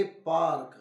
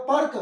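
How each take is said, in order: First: पार्क with a long आ, पाऽर्क; पार्क said with a long आ sound, the correct reading; right long aa. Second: पर्क with a short अ, पर्क; पर्क said with a short अ sound, as a wrong reading. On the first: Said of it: "इसे हम बोलेंगे पार्क". (बड़े आ के साथ पार्क) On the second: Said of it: "लेकिन यह पर्क नहीं बोला जाएगा". (छोटे अ के साथ पर्क) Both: Shown as a demonstration.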